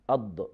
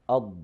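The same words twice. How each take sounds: First: The voice is cut off at the consonant. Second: The voice keeps flowing through the consonant. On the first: The speaker calls it wrong. "the common mistake is like this... it has the quality of shidda" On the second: The speaker calls it right. "with the quality of Rakhawa... the sound or the voice flows"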